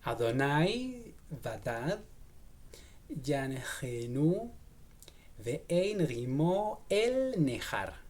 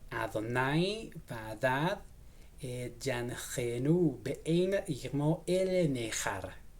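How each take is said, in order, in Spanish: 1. El verso se lee a un ritmo más lento. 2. El verso se lee a un ritmo normal.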